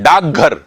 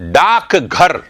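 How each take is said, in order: First: The first word ends in a g sound. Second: The first word ends in a k sound. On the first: "जल्दी में बोलते हैं ... कै को गै में बोलते हैं" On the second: "यह है कै"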